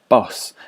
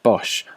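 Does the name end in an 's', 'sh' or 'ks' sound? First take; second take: s; sh. First: The name ends in a plain 's' sound. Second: The name ends in an 'sh' sound. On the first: This is how it was said in the artist's own time. "would have been pronounced Boss in his day" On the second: This is how the speaker says it today. "but I pronounce it Bosch"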